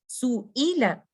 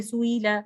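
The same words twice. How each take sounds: First: "सुईला" giving the hamza its full time; correct reading. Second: Said in the usual way. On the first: Shown as a demonstration. Teacher giving the correct reading. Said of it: "आपने हमजा को time देना है". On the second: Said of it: "आप इसको ऐसे नहीं पढ़ सकते".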